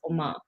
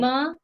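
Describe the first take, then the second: First: It is said like the Korean word for mom. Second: It is read out as the spelling suggests. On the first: "but I wanna say it's Oma" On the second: "phonetically, I do I wanna say"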